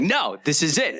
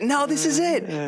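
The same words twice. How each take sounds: First: It is said with a negative, hostile energy. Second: It is said with a positive, enthusiastic energy. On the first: The speaker is being pushy and unpleasant. The speaker calls it wrong. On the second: The speaker is genuinely excited about the place. The speaker calls it right.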